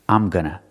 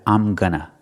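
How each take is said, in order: The two takes are said the same way.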